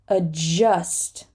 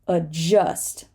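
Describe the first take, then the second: No difference in how they are said.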